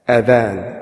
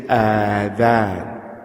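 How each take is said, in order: First: The first vowel is held short. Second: The first vowel is held long. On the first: It means the call to prayer. The speaker calls it right. "short adhan" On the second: It means ears. The speaker calls it wrong. "Sometimes people mistakenly say the adhan"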